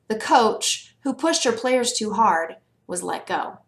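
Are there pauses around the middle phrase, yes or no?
yes. It has pauses around the middle phrase.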